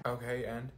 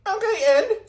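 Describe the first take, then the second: First: Said in the usual way. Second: Mocking echo. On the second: Mocking a classmate.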